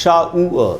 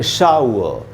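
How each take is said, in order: Both takes have the same delivery.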